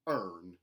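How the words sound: The R sound is hard and strong. "mountain, where the R sounds are retained, but they are hardened"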